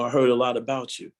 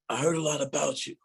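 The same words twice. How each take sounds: First: It is said in the speaker's normal voice. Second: It imitates the voice of a ninety-year-old man.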